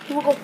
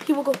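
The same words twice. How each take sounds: The two takes are said the same way.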